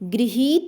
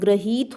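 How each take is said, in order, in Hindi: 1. पहला अक्षर 'gri' जैसा सुनाई देता है। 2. पहला अक्षर 'gra' जैसा सुनाई देता है। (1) "गृहीत ना होकर क्या होता है" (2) "ग्रहीत शब्द ध्यान रखिएगा शुद्ध होता है"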